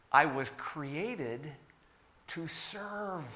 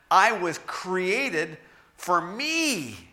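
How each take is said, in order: First: "created" slow and rising, "to serve" much softer; slow down, then soften on "to serve"; quiet earnest "to serve" after a slow build; solemn stress. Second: "me" drawn out very slowly with a falling tune; self-focused "for me" drawn out slowly; stressing me. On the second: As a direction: linger selfishly on "me". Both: Shown as a demonstration. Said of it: "But the reality is".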